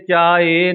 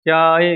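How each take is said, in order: First: The word ends in a long drawn 'e' vowel. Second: The word ends quickly in a short clipped 'i'. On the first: The speaker calls it wrong. "ਲਾ ਕੇ ਚਾਏ ਨਹੀਂ ਬੋਲਣਾ" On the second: The speaker calls it right. "ਸਿਹਾਰੀ ਬੋਲਣੀ ਹੈ ਚਾਏ ਚਾਏ, ਇਕੱਠਾ ਬੋਲ ਦੇਣਾ ਤੇ ਛੇਤੀ ਬੋਲਣਾ"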